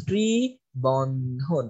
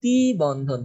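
First: ত্রিবন্ধন stretched out very slowly, lower; very slow dictation. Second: Said in the usual way. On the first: Shown as a demonstration. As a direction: draw ত্রিবন্ধন out for students to write. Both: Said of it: "হচ্ছে আমাদের ত্রিবন্ধন".

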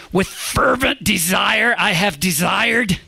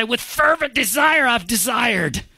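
First: "fervent" drawn out slow and higher, "desired" leaned on; overemphasized. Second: "fervent" pitched much higher and pressed hard; overemphasized. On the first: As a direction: stretch out "fervent" with big emphasis. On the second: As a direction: overdo the weight on "fervent" and "desire". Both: Shown as a demonstration. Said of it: "really be trying to overemphasize".

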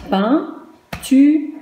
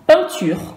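First: Peinture en trois syllabes séparées, pein-tu-re; détacher chaque syllabe de Peinture, le « re » final prononcé; découpage en syllabes. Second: Said in the usual way. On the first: Shown as a demonstration. (Peinture scandé lentement, syllabe par syllabe) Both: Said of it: "combien de syllabes?".

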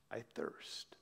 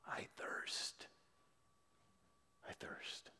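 First: Hoarse, very soft whisper from a dry throat; raspy whisper. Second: Breathless, unvoiced whisper fading away; fainting whisper. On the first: Acted. Jesus on the cross, parched, a soft raspy whisper. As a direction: barely voice it, parched and spent. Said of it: "In a raspy voice, he whispers out". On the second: Jesus dying on the cross, a fading whisper. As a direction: let the words die on the breath. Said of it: "he cried with a fainting voice".

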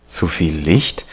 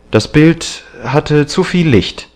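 First: "Zu viel Licht" as a question, rising on "Licht"; questioning echo. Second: High-pitched stated excuse; defensive excuse. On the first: Painter doubting the excuse, "Zu viel Licht" as a questioning echo. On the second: Young man excusing the hidden picture to the painter, defensive. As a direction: offer it as a firm explanation. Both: A narrator's reading.

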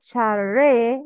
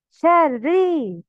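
First: Slow شري ending in "ray"; incomplete kasra. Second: Slow شري ending in "ree"; complete kasra. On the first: Teacher showing the mistake, شري ending in "eh". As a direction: let شري end on an open "eh". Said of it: "Not شري". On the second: Teacher showing the kasra, شري ending in "ee". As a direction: stretch شري to a full "ee". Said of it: "Complete the كسرة". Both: Shown as a demonstration.

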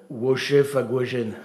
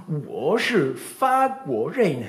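First: Clumsy pupil. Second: Teacher's model. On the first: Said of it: "Brunet était". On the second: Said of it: "Elle disait". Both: Retold or imitated.

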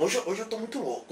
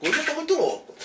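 First: Soft, hushed confession; quiet. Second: Higher, buzzing delivery; hyped up. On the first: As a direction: murmur it to yourself. (falando baixinho) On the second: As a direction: burst it out all wired. (agitado e elétrico) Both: Acted.

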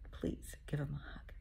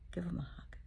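First: Whispered plea. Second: Said in the usual way. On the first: Real, not acted. Repeats plea, softer.

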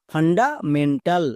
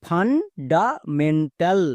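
First: fundamental said slowly as one joined word; now blend fundamental together, still slow; careful model reading of fundamental; slow full word. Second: fundamental stretched out very slowly, each syllable ফান-ডা-মেন-টাল held apart; drawn-out teaching demo of fundamental. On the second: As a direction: spell fundamental out slowly for learners. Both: Shown as a demonstration. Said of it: "তাহলে পুরোটা কি দাঁড়ালো?".

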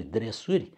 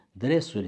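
First: Dresuri stressed on the ending; second stress. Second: Dresuri stressed on DRE; first stress. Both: Shown as a demonstration. Teacher contrasting the two stresses of dresuri. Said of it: "sunt diferite".

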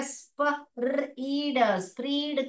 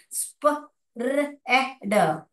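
First: स्प, र, ई, ड slowly, then स्प्रीड with long ee; sounding out. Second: स्प, र, ए, ड said as separate sounds with short e; sounding out. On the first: Teacher showing the wrong long-ee reading. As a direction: read it with the long ee. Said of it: "इसको आपको पढ़ना पड़ेगा". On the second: Teacher segmenting spread sound by sound. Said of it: "इसको अगर हम ऐसे लिखेंगे". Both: Shown as a demonstration.

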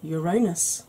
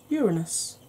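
First: Uranus said yuh-RAY-nus; Uranus as your-AY-nus, second syllable stressed; old-style Uranus. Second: Uranus said YOOR-uh-nus; Uranus as YOOR-uh-nus, middle vowel reduced; stress on first syllable of Uranus. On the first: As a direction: stress the middle of Uranus with a long AY. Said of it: "as we used to call it". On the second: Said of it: "or as we used to call it". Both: Shown as a demonstration.

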